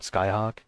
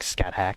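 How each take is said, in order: First: The name is said with an h-sound, ending 'hawk'. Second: The name is said with a th-sound, ending 'hack'. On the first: This is how the name is really said. The speaker calls it right. "I think you actually pronounce that" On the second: This is how the name looks when written. The speaker calls it wrong. "but it looks like"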